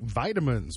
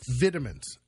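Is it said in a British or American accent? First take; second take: American; British. First: It is said in an American accent. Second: It is said in a British accent.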